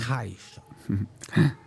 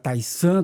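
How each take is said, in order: First: The middle consonant is an sh sound. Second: The middle consonant is a plain s sound. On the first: This follows the Mandarin pronunciation. The speaker calls it right. "hoje todos eles falam Taishan também" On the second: This is how people said it in the past. The speaker calls it wrong. "O pessoal falava na época Taisan"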